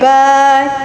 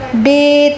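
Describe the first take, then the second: First: The letter name ends in an 'a' vowel. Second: The letter name ends in an 'e' vowel. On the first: It is the Arabic way of naming the letter. The speaker calls it right. "अलिफ से लगा के पढ़ेंगे" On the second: It is the Urdu way of naming the letter. The speaker calls it wrong. "जिस तरह उर्दू में हम पढ़ते ना ... इस तरह से नहीं पढ़ना"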